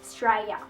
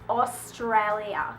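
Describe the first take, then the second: First: It is said in a very broad Australian accent. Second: It is said with a non-Australian accent. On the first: "a little bit more bogan" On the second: "it's not Australia"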